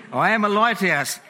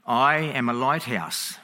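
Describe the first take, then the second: First: Higher, louder, relishing the joke; gleeful punchline. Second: Slow, unhurried and matter-of-fact; calm reply. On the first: Preacher repeating the joke to his laughing congregation, higher and louder with glee. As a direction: savour the punchline with delight. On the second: Lighthouse keeper calmly answering the angry captain, slow and steady. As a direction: let the punchline land calmly and slowly. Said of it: "Back comes the calm reply". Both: Acted.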